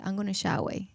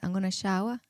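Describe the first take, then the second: First: An i sound replaces the final consonant. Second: An l sound ends the word.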